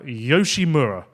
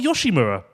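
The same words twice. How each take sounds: First: The name is said in the usual pronunciation. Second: The name is said in a regional pronunciation.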